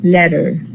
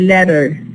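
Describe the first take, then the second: Both takes have the same delivery.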